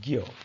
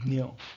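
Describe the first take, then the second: First: The letter is pronounced with a gy sound. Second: The letter is pronounced with a dny sound. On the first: "in Hindi, it is pronounced as" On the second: "The last letter in the list of alphabets is Dnya"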